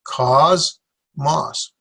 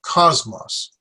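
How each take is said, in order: First: "cosmos" divided as koz... mos; two slow separate syllables in "cosmos". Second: "cosmos" joined up as KOZ-mos; stress on first syllable. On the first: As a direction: say "cosmos" with a clear gap between s and m. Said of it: "won't go together well". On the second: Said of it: "stress on the first syllable". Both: Shown as a demonstration.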